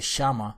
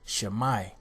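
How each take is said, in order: First: The word ends with a plain 'a' vowel. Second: The word ends with an 'eye' vowel. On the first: The speaker calls it wrong. "that's not the proper pronunciation" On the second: The speaker calls it right. "The word is shamai"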